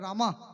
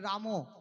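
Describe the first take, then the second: First: The name ends in an 'a' vowel. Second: The name ends in an 'o' vowel. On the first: "যারা বিহারি বা হিন্দিভাষী তারা বলে রামা" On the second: "বাঙালিরা যারা আমরা তারা বলি রামো"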